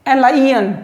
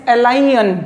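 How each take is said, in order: Both takes have the same delivery.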